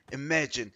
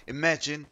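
No difference in how they are said.

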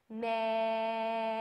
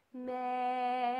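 First: "May." spoken with the vowel held long. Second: Long spoken "May."; spoken held vowel again. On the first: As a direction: say "May." holding the open vowel. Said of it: "say may and hold the vowel". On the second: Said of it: "take a look at where my tongue is". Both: Shown as a demonstration.

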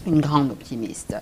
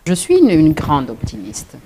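First: Said in the usual way. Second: Louder, stressing grande optimiste; a firm, punchy declaration; emphatic. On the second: Real, not acted. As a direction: proclaim it with pride. Emphatic self-description, then repeated.

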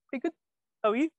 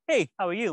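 First: Said in the usual way. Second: High, loud cheerful hello; bright friendly greeting. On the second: Retold or imitated. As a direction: greet him brightly and warmly. Samantha greets him at signing.

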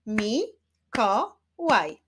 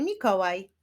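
First: "Mi-ko-łaj" slow, in three separate beats; syllable by syllable. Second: Said in the usual way. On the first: Shown as a demonstration. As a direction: clap out "Mi-ko-łaj" with pauses between syllables. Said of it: "Wyklaszczmy sylaby". („Mi-ko-łaj” powoli, sylabami) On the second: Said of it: "Wyklaszczmy sylaby w wyrazie".

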